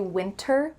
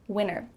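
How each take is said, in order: First: The middle T is clearly pronounced. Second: The middle T is dropped. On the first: "with a clear T if they're enunciating clearly" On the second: "when native speakers speak fast, you're going to hear winner"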